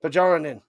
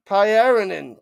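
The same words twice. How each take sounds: First: "Pajaranen" said with a hard J sound; wrong pronunciation. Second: "Pyarinen" said as pie-AR-in-en, no J; silent J pronunciation. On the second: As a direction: drop the J: "Pyarinen". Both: Shown as a demonstration. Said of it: "Oh, it is a silent J".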